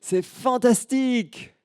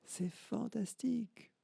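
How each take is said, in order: First: Put-on high, loud, slow child's cry of joy; delighted high-pitched child calling out; little girl exclaiming. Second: High, soft, slow echo coming back; faint distant echo of the girl's cry. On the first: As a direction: shout it like a thrilled little girl in the mountains. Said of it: "elle s'écrie". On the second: Acted. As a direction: let it sound like a far-off mountain echo. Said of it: "Et elle entend".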